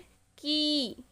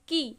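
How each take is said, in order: First: The vowel is drawn out long. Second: The vowel is short and quick. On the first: "ये लग गई है तो अब हम इन्हें खींचेंगे" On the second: "ज़ेर के साथ पढ़ेंगे तो इन्हें हम जल्दी पढ़ेंगे"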